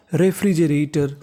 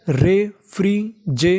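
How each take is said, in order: First: Said in the usual way. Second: refrigerator drawn out slowly, each syllable apart. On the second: Shown as a demonstration. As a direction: sound out refrigerator slowly for learners. (Refrigerator धीरे-धीरे, एक-एक अक्षर अलग करके) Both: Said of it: "पूरी meaning मिला के पढ़ते हैं".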